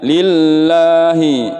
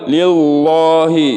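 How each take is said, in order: First: The l is pronounced thin and light. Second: The l is pronounced thick and heavy. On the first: The speaker calls it right. "dibaca tipis" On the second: The speaker calls it wrong. "tebal nggak boleh"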